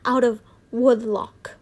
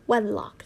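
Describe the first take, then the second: First: Woodlock read with a long oo like wood; slowly stumbling over woodlock as if wood-lock; woodlock, misreading wedlock; misread word. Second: Said in the usual way. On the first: Shown as a demonstration. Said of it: "wedlock, sorry".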